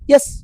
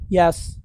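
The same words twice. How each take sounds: First: The word is said with a strong, distinct tone. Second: The word is said in a casual everyday tone. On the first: It marks the moment the dog earns a reward. The speaker calls it right. "That's how I say it. I really try to develop like a strong vocal tone with it" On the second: It is ordinary conversation, not a reward marker. The speaker calls it wrong. "like I would when I'm talking on the phone or talking to my friends"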